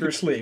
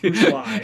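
First: The surname rhymes with 'see'. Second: The surname rhymes with 'sigh'. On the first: The speaker calls it wrong. "who I know you still pronounce it Bruce Lee" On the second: The speaker calls it right. "let's be honest, it's Bruce Lai"

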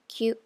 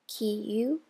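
First: The word is blended into one syllable. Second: The word is split into two syllables. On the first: The speaker calls it right. "becomes q" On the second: The speaker calls it wrong. "Kiyu becomes"

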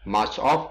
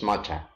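First: The two words are said separately and fully. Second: The two words are blended into one word. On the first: "Much of becomes matcha" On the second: "becomes matcha"

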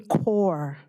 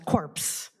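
First: The word ends in an r sound, p and s silent. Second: The word ends with audible p and s sounds. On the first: The speaker calls it right. "the proper pronunciation for that" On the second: The speaker calls it wrong. "addressing the soldiers as corpse"

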